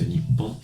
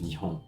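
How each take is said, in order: First: The middle consonant is a held double P. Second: The middle consonant is a soft H sound. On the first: It carries solemnity and a touch of national pride. "un petit côté solennel avec ce Nippon" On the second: It is the ordinary, more common form. "plutôt que juste Nihon"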